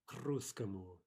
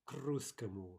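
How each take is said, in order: First: The k runs straight into the next word. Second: The same.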